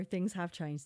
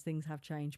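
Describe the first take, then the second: First: Said in the usual way. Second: Softer, lower, fading echo; wistful quieter repeat. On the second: Real, not acted. Speaker repeating to herself about the old days, softly wistful. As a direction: let it sink, softly to yourself.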